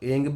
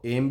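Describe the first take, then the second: First: The word ends with an 'ng' sound. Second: The word ends with an 'm' sound. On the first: "ऐंग भी पढ़ सकते हैं" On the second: "कई लोग ऐं को एम भी पढ़ते हैं"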